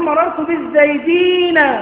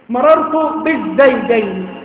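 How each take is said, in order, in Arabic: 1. الكلمة الأخيرة تنتهي بصوت -een. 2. الكلمة الأخيرة تنتهي بصوت -ayn. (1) "يبقى جمع مذكر سالم" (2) "رجلان اسمهما زيد"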